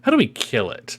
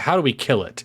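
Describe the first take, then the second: First: It is said with genuine, lively curiosity. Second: It is said in a flat, monotone way. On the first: The asker truly has no idea. The speaker calls it right. "like really asked" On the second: The asker does not seem to care. The speaker calls it wrong. "if they just had her face being monotone"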